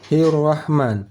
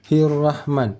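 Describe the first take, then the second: Both takes have the same delivery.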